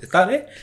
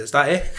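First: "Is that it?" repeated much higher, rising; playful disbelief pitched up; mock surprise. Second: "Is that it?" asked through a laugh; amused, light retold question; laughing disbelief. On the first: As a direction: replay the anticlimax with exaggerated surprise. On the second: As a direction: chuckle at how easy it was. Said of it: "And I said".

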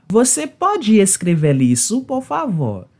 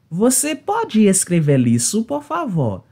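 No difference in how they are said.

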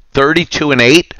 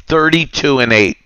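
First: Incredulous. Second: Said in the usual way. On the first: Real, not acted. Reading cheater's score in disbelief.

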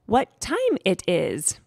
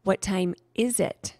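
First: "What time it is" slowly, word by word; slow, effortful "What time it is"; learner's careful question. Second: Slow "What time is it", marking "is it"; measured teacher's correction, "is it" set apart; gentle correction. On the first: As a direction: ask "What time it is" haltingly, like a new speaker. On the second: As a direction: model "What time is it" clearly, leaning on "is it". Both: A narrator's reading. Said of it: "Saya corrected her".

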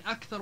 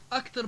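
First: Said in the usual way. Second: أكثر as akter. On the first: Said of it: "بدل من أكثر". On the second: Shown as a demonstration. Teacher showing dialect form, أكثر with t. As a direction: say أكثر with plain t. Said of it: "اختفاء حروف مثل الثاء".

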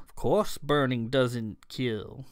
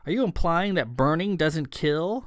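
First: Put-on slow, drawn-out accented answer; matter-of-fact elf. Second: Brisk question with lifted pitch; incredulous question. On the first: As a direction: state the obvious unhurriedly in an elfin accent. Elf answers the incredulous question. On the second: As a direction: challenge the claim in disbelief. Startled listener questions Crow's claim. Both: A narrator's reading.

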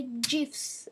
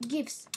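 First: "gifs" starting like "jiffy"; soft-g pronunciation. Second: "gifs" starting like "give"; hard-g pronunciation. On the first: Gamer quoting how some people say it, "gifs" with soft g. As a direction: say "gifs" with a soft J sound, like "jifs". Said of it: "some people say gifs". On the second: Gamer showing viewers their own way, "gifs" with hard g. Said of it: "some people like me say". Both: Shown as a demonstration.

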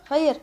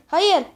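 First: Said in the usual way. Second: Hayır shouted higher and louder, falling at the end; a sharp louder Hayır with a falling tune. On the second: Real, not acted. Gamer protesting a play, Hayır yelled louder.

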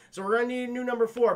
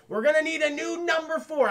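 First: Quicker, milder version of the outburst; brisk repeat. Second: Raised, loud acted outburst; mock exasperated declaration. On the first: Retold or imitated. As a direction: toss it off quickly, slightly raised. Repeats the line more lightly. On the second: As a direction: announce it high and loud, as a character. Acts Reynolds abandoning a teammate.

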